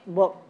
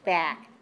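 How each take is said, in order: First: The vowel sounds like the 'oo' in book. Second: The vowel is a clear, open 'ah'. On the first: The speaker calls it wrong. "I don't say book" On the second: The speaker calls it right. "It's still the sound ah"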